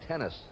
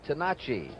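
First: The surname is said in an anglicized English form. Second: The surname is said in its original, non-English form. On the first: This is the Englished form the player now uses. "he has anglicized it now to Gene Tennis" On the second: This is the family's own pronunciation of the name. "the correct pronunciation is Tenacci"

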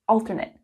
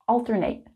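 First: It is pronounced as the adjective form. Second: It is pronounced as the verb form. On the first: It describes something happening every other time. "the adjective" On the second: It names the action of switching back and forth. "The verb"

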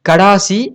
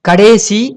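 First: The second syllable has a long aa vowel. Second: The second syllable has an e vowel. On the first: "கடேசி கடாசி அப்படின்னு சொல்லக்கூடாது" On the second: "கடேசி கடாசி அப்படின்னு சொல்லக்கூடாது"

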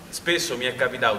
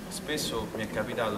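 First: It is spoken loudly, projected like on stage. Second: It is spoken at an ordinary, softer volume. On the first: The speaker calls it right. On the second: The speaker calls it wrong.

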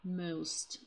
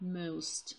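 First: The vowel is a long, gliding oh sound. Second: The vowel is a long, gliding oh sound.

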